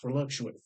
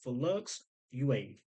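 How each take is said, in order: First: It is said fast, run together. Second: It is said slowly, word by word.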